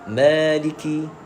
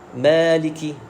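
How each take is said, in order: The two takes are said the same way.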